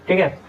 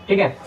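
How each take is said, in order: The two takes are said the same way.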